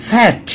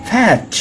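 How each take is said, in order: Both takes have the same delivery.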